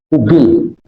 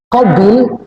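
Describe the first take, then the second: First: The first vowel is a rounded 'u' sound. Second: The first vowel is an open 'a' sound. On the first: The speaker calls it wrong. "Kalau kubil orang Tambun" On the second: The speaker calls it right. "Qabil, bukan kubil"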